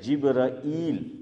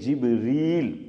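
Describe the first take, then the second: First: The name ends with a long a then i. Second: The name ends with a single long ee. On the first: This is the usual way it is said. "आम तौर पे हम तलफ़ुज़ ... क्या करते हैं?" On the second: Some people say it this way, and it is also correct. "लेकिन बाज़ लोग बोलते हैं"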